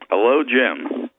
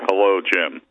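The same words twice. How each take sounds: First: It is said in a lighter voice. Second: It is said in a deeper, bass voice.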